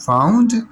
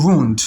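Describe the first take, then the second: First: Wound said as "waoond", rhyming with sound; British wound. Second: Wound said as "woond", rhyming with moon; American wound. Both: Shown as a demonstration. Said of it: "you may pronounce this word as".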